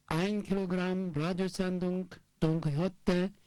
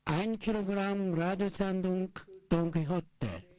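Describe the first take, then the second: No difference in how they are said.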